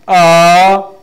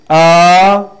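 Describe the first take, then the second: First: It is said with the second tone. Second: It is said with the second tone.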